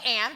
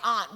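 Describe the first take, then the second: First: The word is said in a plain way. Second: The word is said in a fancier way. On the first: This is how the other person says it. "You say aunt" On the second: This is how the speaker says it. "You sound fancier"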